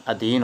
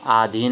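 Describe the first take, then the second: First: अधीन with a short अ at the start; teacher states the right spelling; correct form. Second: आधीन with a long आ stressed at the start; teacher rejects the wrong word; wrong form. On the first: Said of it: "ये wrong है।". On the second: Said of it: "नहीं होता है". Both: Shown as a demonstration.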